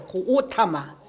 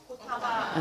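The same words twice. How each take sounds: First: 고오타마 with the first o held long; 고오타마, 첫 모음을 길게. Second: Said in the usual way. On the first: Shown as a demonstration. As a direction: stretch the first syllable: 고오타마. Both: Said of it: "원래는 고오타마예요".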